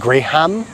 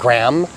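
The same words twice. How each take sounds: First: The word is said with a Filipino pronunciation. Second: The word is said with an American pronunciation. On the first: "but here they say it graham" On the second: "in America we it's a graham cracker. We call it graham"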